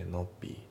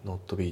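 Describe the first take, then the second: First: NOT BE as "no'bee"; dropped T. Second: NOT BE as "notto bee"; katakana-style NOT with an added vowel; T fully sounded. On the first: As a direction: hold back the T in NOT. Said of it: "notのTが抜けますね". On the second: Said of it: "Not beじゃなくて". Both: Shown as a demonstration.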